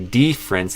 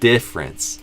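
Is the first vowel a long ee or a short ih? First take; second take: long ee; short ih. First: The first vowel is a long, tense ee sound. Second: The first vowel is a short, relaxed ih sound. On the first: The speaker calls it wrong. "they didn't say difference" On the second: The speaker calls it right. "they said difference"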